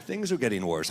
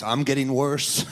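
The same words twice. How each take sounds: First: Said in the usual way. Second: Slower, with I'm leaned on; stress on I'm. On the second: Real, not acted. Comic confessing on stage, "I'm" stressed against things in general. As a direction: turn it on yourself by stressing "I'm". Contrast: things versus the speaker.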